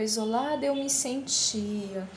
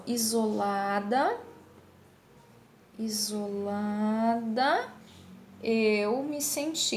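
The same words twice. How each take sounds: First: Final A of "Isolada" almost unspoken before "eu"; elision. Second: Slow "isolada", final A sounded, then "eu" apart; full form, unelided. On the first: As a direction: run "Isolada eu" together as "isolad'eu". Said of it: "o A quase nem é pronunciado". ("Isolada eu" com o A final quase mudo) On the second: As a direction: draw out every vowel of "isolada" before "eu me senti". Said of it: "elas estão aqui bem certinho". ("isolada" devagar e completa, separada de "eu") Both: Shown as a demonstration.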